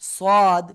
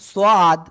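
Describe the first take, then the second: Both takes have the same delivery.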